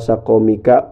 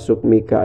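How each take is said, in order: First: The first two vowels are both 'a'. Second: The first vowel is 'u' with no second vowel. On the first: "dibaca fathah dua nyatana fa'il sareng ain" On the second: "dibaca dhammah fa'il fasukunin teras sukun ain fiil"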